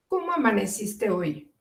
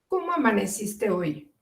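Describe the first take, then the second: First: It sounds caring, said as one smooth question. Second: It sounds caring, said as one smooth question.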